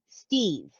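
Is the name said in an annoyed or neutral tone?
neutral. The name is said in a plain, neutral tone. The actor does not know what just happened in the scene. The speaker calls it wrong. "If you haven't read anybody else's thing and you go in and go"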